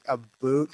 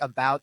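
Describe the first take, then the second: First: "a boot" said like the word boot, Canadian style; Canadian about. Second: Said in the usual way. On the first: Shown as a demonstration. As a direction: say "a boot" with a long oo like boot. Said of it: "they say, like, a boot". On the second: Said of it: "instead of, like, about".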